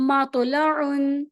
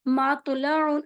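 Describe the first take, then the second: Both takes have the same delivery.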